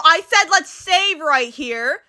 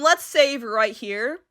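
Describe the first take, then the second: First: "said" pitched up, drawn-out "save right here"; slowly insist, stressing "said"; insistent repeat. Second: Said in the usual way. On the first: Real, not acted. Repeats request after it failed.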